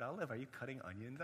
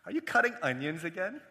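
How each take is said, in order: First: Hushed, tentative check-in; concerned question. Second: Teasing, rising question after a chuckle; amused, light check-in; joking question. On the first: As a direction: ask again gently, the joke gone. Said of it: "She was silent". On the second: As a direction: ask it as a running joke. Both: Retold or imitated.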